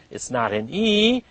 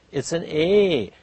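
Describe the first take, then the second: First: "E" held long and rising, "eee". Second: "A" held as a long "ay". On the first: Teacher ruling out a vowel, long E. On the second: Teacher giving the correct vowel, long A. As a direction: draw out the A. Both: Shown as a demonstration.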